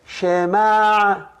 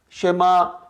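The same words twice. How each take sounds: First: It ends with a throaty guttural catch. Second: It ends with a plain open vowel. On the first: The speaker calls it right. "So you're supposed to say" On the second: The speaker calls it wrong. "No, incorrect"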